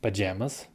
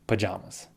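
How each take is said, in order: First: Pajamas with a as in jam. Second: Pajamas with ah as in father; pa-jah-mas. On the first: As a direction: say "Pajamas" with short a. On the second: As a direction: say "pajamas" with broad ah. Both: Shown as a demonstration. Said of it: "either one of these two ways".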